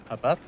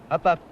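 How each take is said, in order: First: It is said tentatively with little energy. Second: It is said firmly with more energy.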